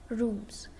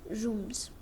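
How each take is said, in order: Both takes have the same delivery.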